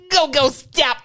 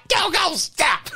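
First: Put-on sung kids show jingle. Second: Shouted jingle. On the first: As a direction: chant it like a TV jingle. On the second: Pretend. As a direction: belt the jingle out slowly. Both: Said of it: "give us the jingle again".

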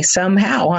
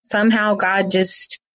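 First: Dry sarcastic "Somehow" lifted high; "Somehow" said with ironic raised pitch. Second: Said in the usual way. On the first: Shown as a demonstration. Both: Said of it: "I'm being sarcastic".

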